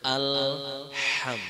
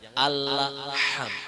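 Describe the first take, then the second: First: The l joins straight into the h sound. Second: The l is bounced with an added vowel. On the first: The speaker calls it right. "maka sebut huruf berikutnya alham, langsung disambut" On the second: The speaker calls it wrong. "jangan allaham"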